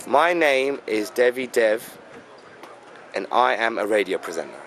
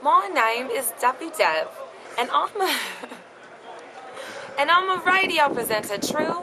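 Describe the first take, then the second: First: English accent demo. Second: English accent slipping into American; attempted English accent. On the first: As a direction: model the line for her. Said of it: "Now say that". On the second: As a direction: try the accent and crack up. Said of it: "you did the American at the end". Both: Shown as a demonstration.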